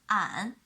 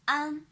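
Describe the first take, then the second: First: The pitch dips low and then rises. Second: The pitch stays high and level. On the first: "The third tone" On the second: "the first tone"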